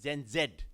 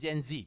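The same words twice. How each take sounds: First: The Z is said in a non-American way. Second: The Z is said in the American way. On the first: "I used to say" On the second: "because of that American lingo"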